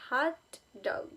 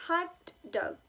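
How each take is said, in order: First: "hot" leaned on, "dog" falling; stress on hot. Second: "Hot" high and punched, "dog" falling; stress on hot. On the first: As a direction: lean on "hot", soften "dog". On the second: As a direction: hit "Hot" hard, let "dog" fall. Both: Shown as a demonstration. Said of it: "Hot dog is a compound word because the first element".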